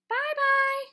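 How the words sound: It is said in a middle-sized voice.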